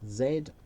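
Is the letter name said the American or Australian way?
Australian. The letter is said the Australian way, as zed.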